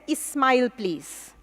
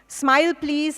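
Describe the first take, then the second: First: An extra vowel is added before the s sound. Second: The first word begins directly with an s sound.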